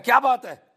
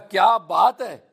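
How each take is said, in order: First: It sounds like an angry scolding. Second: It sounds like admiring praise.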